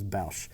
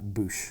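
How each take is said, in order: First: The vowel sounds like the one in 'cow'. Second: The vowel sounds like the one in 'shoe'. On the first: This is the speaker's own preferred version. "That's what I grew up saying was Bausch" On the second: This is the version used in the official recording. "not Boosh"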